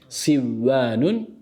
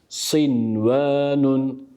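First: The n merges into the following w sound. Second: The n is pronounced clearly before the w. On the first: The speaker calls it wrong. "Sivvanun yanlış bir telaffuz olur" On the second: The speaker calls it right. "Doğru telaffuz sinvanun"

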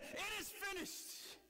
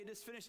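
First: It is cried out loudly and forcefully. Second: It is said quietly, without force.

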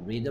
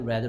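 First: The vowel sounds like a long 'ee'. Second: The vowel sounds like a short 'eh'. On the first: It is the present form. "EA의 발음이 이때는 E지만" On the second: It is the past form. "이때는 뭐가 된다? A가 된단 말이죠"

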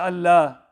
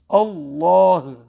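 First: The l is thin and no final h sounds. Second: The l is full and a final h sounds. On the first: The speaker calls it wrong. "Some people recite the lam in a thin tone. They say Allah. And they even don't recite the ha" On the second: The speaker calls it right. "Make sure you mention the ha at the end"

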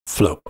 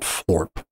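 First: The word is said without an r sound. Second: The word is said with an r sound. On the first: The speaker calls it right. "It's enunciated Floop" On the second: The speaker calls it wrong. "not called Floorp"

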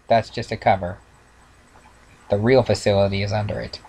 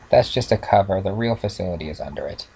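First: It is read at a normal pace. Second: It is read quickly, running together.

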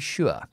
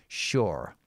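First: It is said in a very posh British accent. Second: It is said with an R sound at the end. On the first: The speaker sounds aristocratic. "if you're aristocratic and you want to speak very posh, you would say" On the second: The speaker sounds American. "if you want the American pronunciation, you just pronounce the R at the end"

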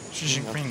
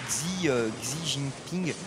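First: Xi begins with a sh sound. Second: Xi begins with a ks sound. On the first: This is the way it is said in Chinese. The speaker calls it right. "Comme ça, ouais" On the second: This is the way it used to be said. The speaker calls it wrong. "alors moi je prononçais Xi Jinping"

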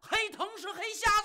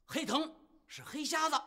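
First: It is shouted loudly like a slogan. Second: It is said quietly, under the breath.

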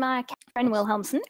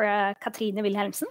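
First: The name is pronounced with English sounds. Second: The name is pronounced with Norwegian sounds.

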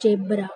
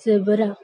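First: The first consonant is a j sound. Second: The first consonant is a z sound. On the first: The speaker calls it wrong. "ना कि जेब्रा" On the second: The speaker calls it right. "इसको भी हम क्या पढ़ेंगे"

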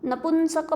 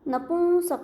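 First: The nasal is a full n consonant. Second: The nasal is only a nasalized vowel. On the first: The speaker calls it wrong. "नपुंसक पण नाही" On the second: The speaker calls it right. "औं फक्त उच्चार होतो"

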